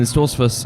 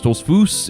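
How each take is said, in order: First: The name is pronounced the way non-Amish people say it. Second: The name is pronounced the way Amish people say it.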